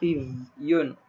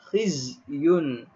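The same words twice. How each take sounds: First: The z sound is weak and unclear. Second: The z sound is clear and distinct. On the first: The speaker calls it wrong. "Jangan baca khizyun" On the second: The speaker calls it right. "Kena jelaskan huruf zai"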